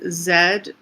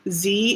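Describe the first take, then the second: First: The letter is said the Canadian way. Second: The letter is said the American way. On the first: "so Z because it's after, ... Zeta" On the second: "Z is American"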